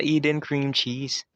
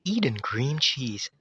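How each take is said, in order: First: Said in the usual way. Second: Slow, drawn-out product-name read; commercial voice talent. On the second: Acted. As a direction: imitate the cream cheese ad voice. (ginagayang boses sa patalastas) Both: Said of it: "siya yung boses sa Eden Cream Cheese".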